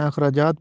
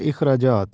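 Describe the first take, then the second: First: Short a at the start of اخراجات; common mispronunciation. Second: Short i, not a, opening اخراجات; correct pronunciation. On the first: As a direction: say اخراجات as "akhrajaat". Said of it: "ہم اس کو زبر کے ساتھ پڑھتے ہیں". (اخراجات کو زبر سے "اَخراجات" پڑھیں) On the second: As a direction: say اخراجات as "ikhrajaat". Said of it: "درست تلفظ ہے". (اخراجات کو زیر سے "اِخراجات" پڑھیں) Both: Shown as a demonstration.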